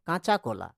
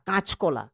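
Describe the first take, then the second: First: The middle vowel is kept, with even stress. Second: The middle vowel drops, with stress at the start. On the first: "কাঁচা কলাতে normal" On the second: "কাঁচকলাতে কা তে stress পড়ছে আমাদের, সেই জন্য মাঝের এইখানে ... আটা এখানে নেই"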